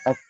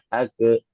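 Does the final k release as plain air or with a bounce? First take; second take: plain air; bounce. First: The final k releases only a puff of air. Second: The final k bounces into a vowel-like release. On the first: The speaker calls it right. "Harusnya cuma angin" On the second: The speaker calls it wrong. "jangan sampai pantulan"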